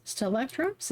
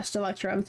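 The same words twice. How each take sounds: First: Stelectrums said as a hesitant question, rising at the end; unsure pronunciation. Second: Said in the usual way. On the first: Shown as a demonstration. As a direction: try out Stelectrums tentatively, checking if it's right. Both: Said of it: "Is that how you say it?".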